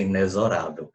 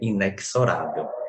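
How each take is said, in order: First: The x is said as a single z sound. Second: The x is said as ks, adding a sound. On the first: The speaker calls it right. "a pronúncia que a gramática considera correta é inexorável" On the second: The speaker calls it wrong. "há uma pronúncia errônea de inexorável que é inexorável"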